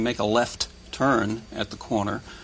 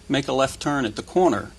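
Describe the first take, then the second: First: Each word is articulated separately. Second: The words are run smoothly together.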